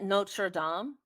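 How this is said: It is said with a French-style pronunciation. "but isn't it Notre Dame? ... I'm not even doing the French properly"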